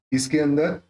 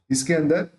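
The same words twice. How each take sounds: The two takes are said the same way.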